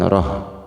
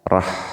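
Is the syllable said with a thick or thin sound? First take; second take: thick; thin. First: The syllable is said with a thick, heavy sound. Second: The syllable is said with a thin, light sound. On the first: The speaker calls it wrong. "bukan roh" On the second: The speaker calls it right. "ha-nya kecil, ha tipiskan, rah"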